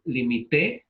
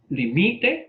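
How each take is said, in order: First: "limité" as li-mi-TÉ, stress on TÉ; stress on the last syllable. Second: "limite" as li-MI-te, rising at the end; stress on the middle syllable. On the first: Teacher summing up the forms, stress on TÉ in "limité". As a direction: land on TÉ at the end of "limité". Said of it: "lleva acento como aguda". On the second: Teacher summing up the forms, stress on MI in "limite". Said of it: "no lleva acento". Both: Shown as a demonstration.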